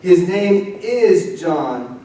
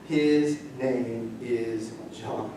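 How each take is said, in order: First: His name is John said very slowly with a lifted, stronger voice; slow triumphant declaration. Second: His name is John said very slowly and softly, each word weighed; slow solemn declaration. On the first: Preacher proclaims Zechariah's praise slowly and strongly. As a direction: proclaim it slowly with rising joy. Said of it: "praising God". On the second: Preacher reads Zechariah's written words in a slow hushed voice. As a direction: let each word land slowly and quietly. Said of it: "What's incredible to that". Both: Acted.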